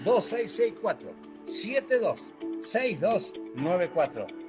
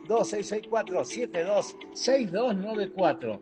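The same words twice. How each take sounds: First: The number is said slowly. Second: The number is said fast.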